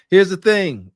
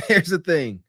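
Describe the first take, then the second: First: Loud opening, "Here's" hit hard; stress on here's. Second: Said in the usual way. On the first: Shown as a demonstration. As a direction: punch the word "Here's" with a falling end.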